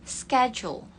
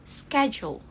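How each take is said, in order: The two takes are said the same way.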